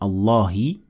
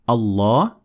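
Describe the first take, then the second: First: The word ends with a short i vowel. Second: The word ends on a bare consonant. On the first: "I turned it from Allahi" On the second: "into Allah"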